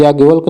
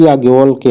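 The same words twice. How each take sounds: First: याज्ञवल्क ending on a bare K; wrong pronunciation. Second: याज्ञवल्क्य ending in a "kye" glide; correct pronunciation. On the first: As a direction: say याज्ञवल्क without the final Y sound. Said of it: "तो ये याज्ञवल्क नहीं". (याज्ञवल्क को अंत में 'य' के बिना बोलें) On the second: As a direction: add the Y after K in याज्ञवल्क्य. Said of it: "याज्ञवल्क्य होता है". (याज्ञवल्क्य के अंत में 'क्य' बोलें) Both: Shown as a demonstration.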